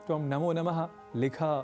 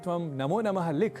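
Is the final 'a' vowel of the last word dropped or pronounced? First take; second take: pronounced; dropped. First: The final short vowel is fully pronounced. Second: The final short vowel is dropped. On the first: The speaker calls it right. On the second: The speaker calls it wrong.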